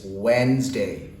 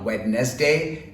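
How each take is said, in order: First: The word is said with two syllables. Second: The word is said with three syllables. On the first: The speaker calls it right. "broken down into two parts or syllables" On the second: The speaker calls it wrong. "It's not Wednesday"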